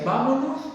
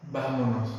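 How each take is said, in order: First: "Vámonos" much higher, with a bright rise; an upbeat, rising "Vámonos"; eager vámonos. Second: Said in the usual way. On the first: Retold or imitated. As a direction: say "Vámonos" like an excited invitation, pitched up high. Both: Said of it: "Si Dios me dice".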